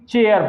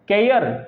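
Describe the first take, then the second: First: The word begins with a ch sound. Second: The word begins with a k sound.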